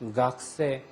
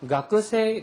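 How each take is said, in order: First: The middle vowel is nearly silent. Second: The middle vowel is clearly pronounced. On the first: This is the usual Tokyo pronunciation. "도쿄 사투리는 가크 할 때 그 발음을 생략을 합니다" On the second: Some people in the south still say it this way. "규슈나 저쪽 남쪽으로 가면 아직도 가크세"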